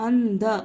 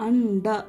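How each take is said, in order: Both takes have the same delivery.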